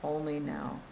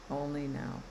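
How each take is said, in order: First: Said in the usual way. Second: "Only now." repeated softer, letting it settle; softer echo. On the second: Shown as a demonstration. Coach echoing her own words to viewers, softer. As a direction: echo "Only now." more quietly, like an afterthought.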